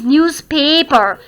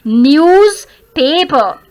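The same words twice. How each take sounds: First: "newspaper" as one word with weight on "pa"; stress on PAPER. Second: "Newspaper" slowly, stressing both "news" and "pa"; double stress. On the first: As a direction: lean on "pay" in "newspaper". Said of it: "Secondary syllable stress". ("newspaper" में "पे" पर ज़ोर) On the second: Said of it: "there are two syllables to be stressed". ("Newspaper" के दोनों हिस्सों पर धीरे से ज़ोर) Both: Shown as a demonstration.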